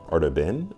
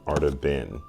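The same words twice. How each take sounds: First: "Arda Bin" with a rising, questioning end; "Arda Bin" lifted at the end like a question; questioning pronunciation. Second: "Arda Bin" with a falling end, lower; "Arda Bin" dropping down at the end; settled pronunciation. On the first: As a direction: try out "Arda Bin" as if checking it. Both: Shown as a demonstration. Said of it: "It's all about pronunciation, enunciation".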